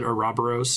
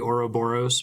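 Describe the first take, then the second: First: It is pronounced the game's way, sounding threatening. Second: It is pronounced in the Greek way. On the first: "they pronounce it Ouroboros in uh, in Bravely Default, and it just sounds so much more threatening" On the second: "in Greek that's supposed to be Ouroboros"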